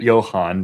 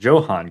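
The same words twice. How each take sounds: First: It starts with a Y sound. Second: It starts with an English J sound. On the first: The speaker calls it right. "it's a silent J" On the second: The speaker calls it wrong. "if I was not informed of how to properly pronounce that"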